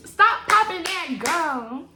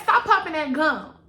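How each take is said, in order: First: Slow, stretched "popping" with a rise; drawn-out sassy quote. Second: Loud, sassy "Stop popping that gum"; sassy scold. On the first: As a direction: drag out the word popping. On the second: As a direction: scold like a fed-up auntie. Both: Retold or imitated. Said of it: "Girl, get that".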